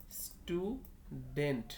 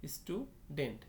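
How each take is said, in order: First: student stretched as stu, pause, dent; very slow student in two separate parts; syllable by syllable. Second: Said in the usual way. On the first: Shown as a demonstration. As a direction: sound out both halves of student. Two syllables shown, then joined.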